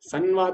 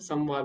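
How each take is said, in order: First: The nasal before v is not an m sound. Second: The nasal before v sounds like m. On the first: The speaker calls it wrong. "संवाद नहीं होता" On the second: The speaker calls it right. "माँ लगेगा ... संवाद होता है"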